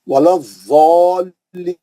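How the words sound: The letter is said with a Z sound, South Asian style.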